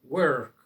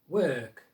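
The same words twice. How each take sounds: First: The R is strongly pronounced. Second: The R is not pronounced. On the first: "it's always pronounced and it sounds very strong" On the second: "the R sound isn't always pronounced"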